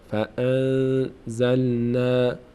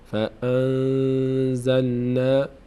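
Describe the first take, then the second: No difference in how they are said.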